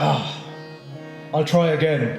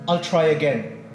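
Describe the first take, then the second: First: It is said reluctantly, with a moan. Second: It is said willingly and humbly.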